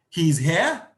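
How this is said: It is said as a question.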